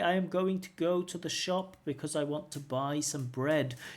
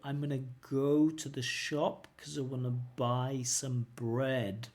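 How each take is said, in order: First: Each word is said fully and separately. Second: The words run together but at slow speed. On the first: "careful speakers. Yeah, it's okay" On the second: "I can say it slowly but connected"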